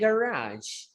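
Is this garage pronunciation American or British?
American. It is said in an American pronunciation. "In American English, we say garage"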